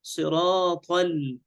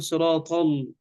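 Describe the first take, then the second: First: "صراط ال-" slowed, ending on a light l; drawn-out siraat-al, clean l in "صراط ال-"; light lam. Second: "صراط ال-" with the l thickened; faulty demo, emphasis spilling onto l in "صراط ال-"; wrong heavy lam. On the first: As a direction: keep l thin after heavy ṭā in "صراط ال-". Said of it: "حروف لم تبس". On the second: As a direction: darken the "al" ending of "صراط ال-". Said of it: "لا نقول صراط ال". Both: Shown as a demonstration.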